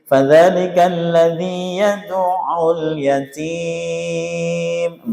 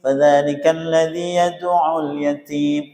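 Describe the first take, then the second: First: The vowel before the final m is held four counts. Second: The vowel before the final m is held two counts. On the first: "empat lagi" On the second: "Berarti dua-dua semua nanti"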